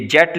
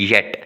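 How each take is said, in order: First: जेट starting with an English j sound; as written with j. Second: येट starting with a y glide; y sound for j. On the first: Teacher reading the transcription as written, जेट with j. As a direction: read the symbol j literally as जेट. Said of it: "ये जेट लिखा हुआ है". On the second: Teacher giving the real word behind the symbol, येट with y. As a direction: say येट with y where j is written. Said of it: "लेकिन क्या है येट". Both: Shown as a demonstration.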